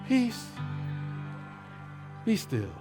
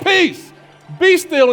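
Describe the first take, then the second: First: It is said softly and calmly, with a sigh. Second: It is said loudly and commandingly, with exclamation.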